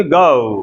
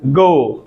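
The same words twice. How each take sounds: First: "गो" as goh-oo, a gliding diphthong; native English pronunciation. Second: "गो" with one pure o; usual Indian pronunciation. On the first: Teacher shows how Americans would say it, native pronunciation. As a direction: glide "गो" from o into u. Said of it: "American ऐसे नहीं बोलेंगे". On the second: Teacher echoes what the students say, usual Indian pronunciation. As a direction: keep "गो" unglided, pitch falling. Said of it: "हम क्या बोलते हैं?". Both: Shown as a demonstration.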